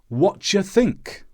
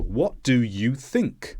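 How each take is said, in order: First: Sounds are squashed together and reduced. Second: Every sound in the phrase is clearly pronounced. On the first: Casual everyday speech. "someone on the street might say" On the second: Careful textbook speech. "you're generally taught phrases with all of the sounds"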